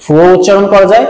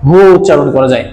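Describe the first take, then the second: First: ফুও said with a breathy lip f sound, fu; fu pronunciation. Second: হুও said with a plain breathy h, hu; hu pronunciation. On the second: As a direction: start হুও with an open h, no lips. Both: Shown as a demonstration. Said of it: "এটিকে কিন্তু দুটি উচ্চারণ আছে".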